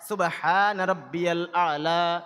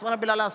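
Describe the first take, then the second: First: It is said slowly with each sound clearly pronounced. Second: It is said quickly with sounds slurred together. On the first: Each word is pronounced properly. The speaker calls it right. "এভাবে আস্তে আস্তে করে" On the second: The sounds of the words are not properly pronounced. The speaker calls it wrong. "এত ঘন ঘন করে"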